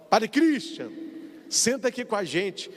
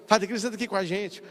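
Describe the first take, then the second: First: Friendly invitation. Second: Relieved echo. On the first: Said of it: "e fala assim que, ó". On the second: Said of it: "Eu, eu fico assim, ó". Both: Retold or imitated.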